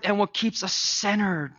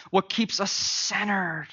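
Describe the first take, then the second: First: Said in the usual way. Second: Slower, weighted restatement of centered; slow emphatic repeat. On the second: Real, not acted. Pastor repeats the question slowly to the congregation. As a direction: lean on each word, drawing it out. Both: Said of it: "repeated for emphasis".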